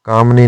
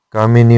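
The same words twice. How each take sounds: First: कामनी as "kaam-nee"; incorrect form. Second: कामिनी as "kaa-mi-nee"; correct form. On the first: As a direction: drop the middle vowel of कामनी. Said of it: "नहीं होता". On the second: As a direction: sound the middle i of कामिनी. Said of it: "होता है". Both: Shown as a demonstration.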